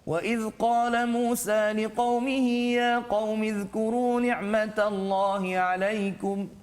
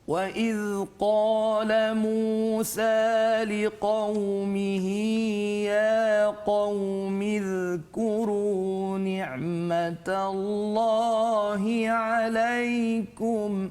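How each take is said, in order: First: It is recited at a moderate, medium pace. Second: It is recited very slowly and melodically. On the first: "Dia taklah sangat laju, tak sangat perlahan" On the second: "Tingkatan yang paling perlahan disebut sebagai tahqiq"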